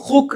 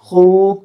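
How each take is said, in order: First: The vowel is short. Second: The vowel is long. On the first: The speaker calls it wrong. "खूक को खुक नहीं कह सकते" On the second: The speaker calls it right. "ये बड़ी आवाज़ से, आवाह ये बुलंद से बन रहा है"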